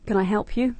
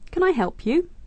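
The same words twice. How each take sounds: First: It sounds curt and less polite. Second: It sounds warm and polite.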